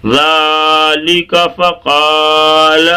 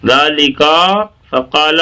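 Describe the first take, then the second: First: Slow chant of ذالک فقال with short ka; no break between ذالک and فقال, long vowels sustained; correctly joined recitation. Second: ذالک with a stretched final kaa, pause, then فقال; spoken ذالک, lengthened at the end, then separate فقال; wrongly split words. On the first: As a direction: hold zaa and qaa, linking ذالک into فقال. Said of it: "اگلا الفاظ لگا لیں ساتھ میں". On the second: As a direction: show the mistake by breaking ذالک from فقال. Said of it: "یہ کھنچ گیا". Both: Shown as a demonstration.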